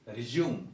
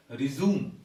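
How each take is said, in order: First: 'resume' as 'ri-JOOM', with a glide; British pronunciation. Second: 'resume' as 'ri-ZOOM'; American pronunciation. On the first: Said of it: "we follow the British English". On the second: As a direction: say 'resume' with a plain 'zoo' sound. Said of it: "in the United States". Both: Shown as a demonstration.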